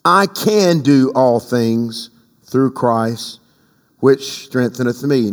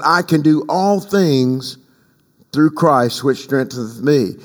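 First: Slow solemn recitation; slow scripture reading. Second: Slow, deliberate, stress on all; a slower quote of the apostle; measured scripture quote. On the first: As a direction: read the verse slow and measured. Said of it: "The apostle pens this". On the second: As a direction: lean on all things. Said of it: "he said". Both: Acted.

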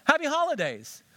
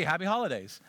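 First: Bright cheerful greeting. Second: Said in the usual way. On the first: Shown as a demonstration.

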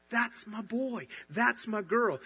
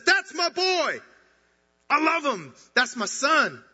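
First: Gentle proud father. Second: Much higher and louder, bursting with pride; a father who can't hold back his joy, shouting it to the heavens; bursting proud shout. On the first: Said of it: "he looks at you and he says". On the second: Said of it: "He rips apart the heavens and says". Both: Retold or imitated.

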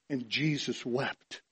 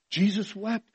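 First: Low, soft and slow; solemn. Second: Higher, questioning lift at the end; astonished. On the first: Preacher reciting the verse on Christ's tears, solemn. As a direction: let it drop, hushed and slow. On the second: Preacher marvelling to congregation at Christ's tears, astonished. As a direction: repeat it in wonder, pitched up. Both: Real, not acted.

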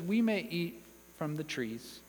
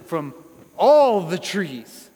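First: Understated, unemphatic quote; simple acknowledgement. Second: ALL stretched long and very loud; stress on ALL. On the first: Preacher voicing Eve minimising the provision, understated. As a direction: let it drop, no weight on any word. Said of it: "Eve simply acknowledges". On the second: Preacher quoting God's lavish provision, booming on "all". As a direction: boom out "all", drawn out and emphatic. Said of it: "made a point to emphasize". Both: Acted.

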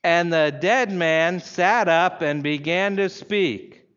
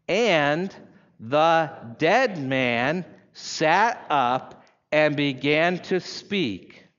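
First: Slow, emphatic reading aloud; strong, deliberate weight on every word; each word out loud. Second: Long pauses between the words; drawn-out reading with a gap after each word; very slow, word by word. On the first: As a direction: lead a congregation in unison, word by word. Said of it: "say each word out loud". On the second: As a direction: read very slowly, letting each word stand alone. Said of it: "very slowly, and pause between each word". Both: Shown as a demonstration.

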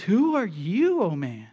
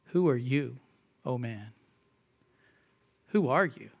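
First: Emphatic rebuke of man. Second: Quiet, low, solemn "Who are you, oh man"; quiet solemn scripture reading; hushed rebuke. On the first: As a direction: demand it, then drop. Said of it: "Very emphatic here". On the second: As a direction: let the rebuke sink low. Quoting Paul's rebuke, hushed. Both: Acted.

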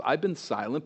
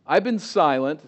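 First: "I've been silent" said quieter and gently; soft confiding. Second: "I've been silent" said louder with a rise on "been"; stress on been. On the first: God speaking gently to Habakkuk, "I've been silent" softly. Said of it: "God says". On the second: Preacher voicing God's line boldly, "been" stressed and rising. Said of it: "I want to say this respectfully". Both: Shown as a demonstration.

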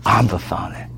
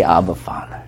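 First: Softer, hushed echo of Abba Father; tender repeat. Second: Soft, low, tender Abba Father; tender prayerful cry. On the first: Shown as a demonstration. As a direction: let it linger gently, softly. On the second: Pretend. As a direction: whisper it like a child calling his father. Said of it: "And I say".

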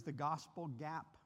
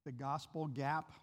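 First: The gospel gap said slowly and deliberately; slow emphasis. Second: "The gospel gap" repeated slowly, rising at the end; slow emphasis. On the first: Preacher introducing the term to counselors, slow and deliberate. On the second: Preacher repeating the term for his listeners, slow and deliberate. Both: Shown as a demonstration. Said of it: "Do you know this phrase".

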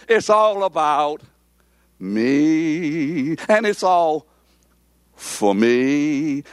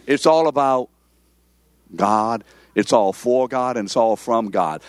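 First: Drawn-out ME, voice lifted; "me" set apart by pauses and stretched; stress on ME. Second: Firm, settling emphasis on "God"; stress on GOD. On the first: Retold or imitated. Preacher mocking self-centered prayers, heavy stress on "me". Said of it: "the emphasis is upon me". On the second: Shown as a demonstration. Preacher correcting self-centered faith, "God" landed firmly.

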